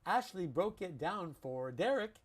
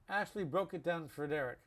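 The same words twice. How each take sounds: First: Each word is pronounced fully and carefully. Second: The words are reduced with little mouth movement. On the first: The speaker calls it wrong. "We would not say" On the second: The speaker calls it right. "we don't like to use our mouths too much"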